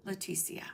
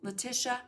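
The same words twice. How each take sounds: First: "Leticia" softly, with an s sound, le-TI-si-a; second pronunciation try. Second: "Letitia" with a t sound, le-TI-sha; first pronunciation try. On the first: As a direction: offer the other version "Leticia", trailing off quietly. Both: Shown as a demonstration. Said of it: "Is it, I always ask you this".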